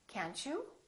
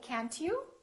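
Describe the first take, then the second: First: The T and you merge into CH. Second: A separate T is heard before you. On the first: The speaker calls it right. "we say can't you?" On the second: The speaker calls it wrong. "we don't say can't you"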